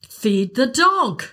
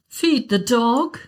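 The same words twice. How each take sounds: First: It sounds exasperated and impatient. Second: It sounds like a gentle, concerned suggestion.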